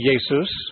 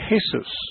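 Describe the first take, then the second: First: The name begins with a Y sound. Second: The name begins with an H sound. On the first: "In German, you'd say Jesus, ... the J is pronounced like a Y" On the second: "In Spanish, they say Jesus. ... the J is pronounced like an H"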